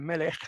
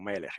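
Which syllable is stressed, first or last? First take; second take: last; first. First: The stress is on the last syllable. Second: The stress is on the first syllable. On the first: The speaker calls it wrong. "no es melech" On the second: The speaker calls it right. "sino melech"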